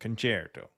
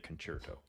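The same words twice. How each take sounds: First: The word is given a European pronunciation. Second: The word is given an American pronunciation. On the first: "that's the European pronouncing concerto" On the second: "Americans say concerto"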